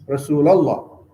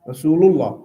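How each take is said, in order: First: The ending of Rasul has an 'a' vowel. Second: The ending of Rasul has a 'u' vowel. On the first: The speaker calls it wrong. "it's not right" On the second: The speaker calls it right. "Rasul with Dam"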